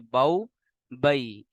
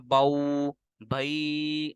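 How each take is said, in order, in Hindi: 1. अक्षर छोटे और नरम हैं। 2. स्वर लंबे खींचे गए हैं। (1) "बल्कि नरमी के साथ मारूफ पढ़ना है, जैसे बऊ बई, इस तरीके से" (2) "हमने इनको लंबा नहीं करना, बऊ भई ऐसे पढ़ेंगे गलत हो जाएगा"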